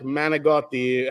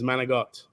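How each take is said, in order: First: The final vowel is pronounced. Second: The final vowel is dropped. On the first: "has an I at the end" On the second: "everyone just says Manigot"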